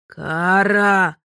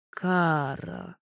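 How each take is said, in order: First: Loud booming call of her name. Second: «Кара» stretched, low, rising at the end; name drawn out. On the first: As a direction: roar her name across the water. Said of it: "громыхнуло неподалёку". (громогласно позвать: «Кара!») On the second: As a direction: draw out «Кара» slowly with a lift. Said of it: "необычно растянув моё имя". (протяжно, низко: «Кара» с подъёмом в конце) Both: A narrator's reading.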